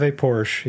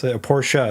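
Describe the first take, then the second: First: "Porsche" with a silent final e; one-syllable Porsche. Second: "Porsche" pronounced POR-shuh; two-syllable Porsche. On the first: Car owner weighing how to say it, "Porsche" as one syllable. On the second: Car owner correcting himself, "Porsche" as POR-shuh. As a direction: finish "Porsche" on an added uh syllable. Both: Shown as a demonstration. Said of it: "Is it Porsche or Porsche?".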